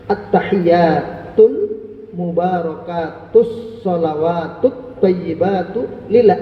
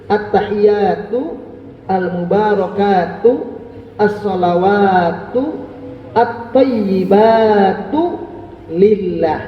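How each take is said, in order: First: The words are run together with linked endings. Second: Each word is said separately with full endings. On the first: "Itu disambung semuanya" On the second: "kalau dibaca putus-putus"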